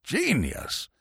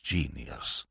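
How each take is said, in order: First: "Genius" repeated more audibly, still soft; murmuring old man. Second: Deep, very soft "Genius"; murmured. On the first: Old Bittlesham repeating his praise, softly awed. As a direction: breathe "Genius" in quiet awe. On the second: Old Bittlesham admiring the author, a deep murmur. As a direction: murmur "Genius" low to yourself. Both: A narrator's reading. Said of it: "murmured old Bittlesham".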